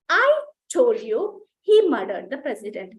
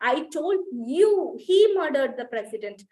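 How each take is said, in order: First: The stress falls on the word I. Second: The stress falls on the word you. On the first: It was me who said it. "Stress is on ఐ" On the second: It was you who was told. "when the stress is on you"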